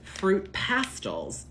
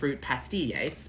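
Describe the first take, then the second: First: The second word sounds like pastels. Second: The double L is said like a y. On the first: The speaker calls it wrong. "I have been told you pronounce this fruit pastels" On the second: The speaker calls it right. "the double L would translate into the Spanish Y for us, so we would say"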